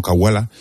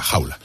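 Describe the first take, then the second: First: "Cahuala" con K dura inicial, ca-hua-la; pronunciación dudosa. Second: "Jaula" con jota inicial, ja-u-la; pronunciación corregida. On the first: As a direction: decir "Cahuala" con C de casa, sin jota. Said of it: "no sé si está bien pronunciado". ("Cahuala" pronunciado con ca fuerte) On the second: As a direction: decir "Jaula" con J gutural como en jamón. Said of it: "creo que es Jaula". ("Jaula" pronunciado con jota) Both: Shown as a demonstration.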